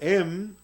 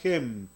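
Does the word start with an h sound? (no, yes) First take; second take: no; yes. First: The word starts directly with the vowel. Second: The word starts with an h sound. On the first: "Usted puede pronunciarlo em o hem" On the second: "Usted puede pronunciarlo em o hem"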